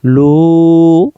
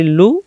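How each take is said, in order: First: লু held long, loud and level; sustained, louder লু on one steady note; elongated vowel. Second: লু said short, without the held u; লু as one brief syllable with no elongation; short vowel. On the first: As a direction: stretch the u of লু out firmly. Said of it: "ওয়াটাকে আমরা টানে নিয়ে যাব". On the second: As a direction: cut the u of লু short. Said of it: "ওয়া অক্ষর তখন উচ্চারণ হবে না". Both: Shown as a demonstration.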